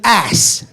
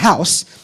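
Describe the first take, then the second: First: The word starts without any h sound. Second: The word starts with a clear h sound.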